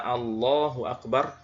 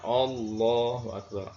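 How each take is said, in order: First: The opening a of Allah sounds light and clear. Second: The opening a of Allah sounds heavy, like o. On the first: The speaker calls it right. "Harusnya dibaca" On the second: The speaker calls it wrong. "menebalkan huruf hamzah pada lafaz Allah"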